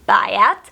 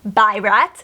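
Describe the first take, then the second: First: The name is said without an R sound. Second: The name is said with an R sound. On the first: The speaker calls it right. "There is no R in her name" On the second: The speaker calls it wrong. "who I have pronounced Byrat the entire book"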